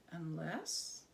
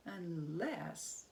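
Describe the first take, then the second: No difference in how they are said.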